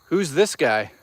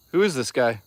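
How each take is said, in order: First: Said in the usual way. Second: Who is this guy? with the word is spelled out and leaned on; stress on is. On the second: Shown as a demonstration. Streamer mocking chat's question, leaning on is.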